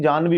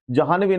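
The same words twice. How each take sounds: First: जानवी said "jaan-vi"; correct pronunciation. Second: जाह्नवी said "jaa-han-vi"; wrong extra syllable. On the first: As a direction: say जानवी with no "ha" syllable. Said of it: "जानवी होता है". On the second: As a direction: sound a full "ha" in जाह्नवी. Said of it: "जाह्नवी नहीं". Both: Shown as a demonstration.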